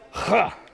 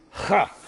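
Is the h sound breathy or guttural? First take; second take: guttural; guttural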